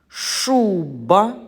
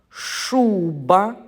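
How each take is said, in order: Both takes have the same delivery.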